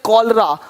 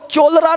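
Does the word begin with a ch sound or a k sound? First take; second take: k; ch. First: The word begins with a k sound. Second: The word begins with a ch sound. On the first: The speaker calls it right. "इसको पढ़ेंगे कॉलरा" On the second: The speaker calls it wrong. "अब देखो चोलरा नहीं पढ़ेंगे"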